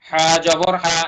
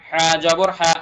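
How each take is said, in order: The two takes are said the same way.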